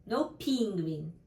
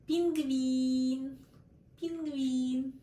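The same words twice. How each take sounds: First: Penguin said the English way, with stress on the first syllable, pen; wrong English way. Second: Penguin said the Russian way, with stress on the second syllable, гвин; Russian пингвин. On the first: Teacher shows learners the wrong English stress. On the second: Teacher models the Russian word for learners, stress on the second E. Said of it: "the second E is stressed". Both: Shown as a demonstration.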